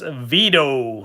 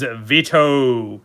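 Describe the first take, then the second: First: It is said in a put-on Chicago accent. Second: It is said in the speaker's plain accent.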